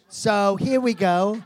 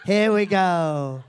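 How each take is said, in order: First: Sing-song here we go. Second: Slow, drawn-out here we go. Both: Shown as a demonstration. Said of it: "repeated catchphrase takes".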